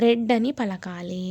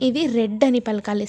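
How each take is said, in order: First: రెడ్ said slowly, every sound drawn out; slow clear pronunciation. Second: Said in the usual way. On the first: Shown as a demonstration. Teacher showing learners how to pronounce రెడ్, slow and deliberate. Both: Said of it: "pronounce ఎలా చేయాలి అంటే".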